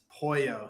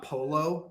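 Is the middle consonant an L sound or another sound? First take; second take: another sound; L sound. First: The middle consonant is not an L sound. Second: The middle consonant is a clear L sound. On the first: The speaker calls it right. "you don't say the L's" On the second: The speaker calls it wrong. "It's not polo"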